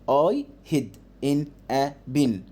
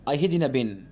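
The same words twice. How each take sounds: First: It is read at a normal speed. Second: It is read quickly.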